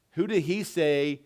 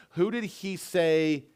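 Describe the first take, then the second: No difference in how they are said.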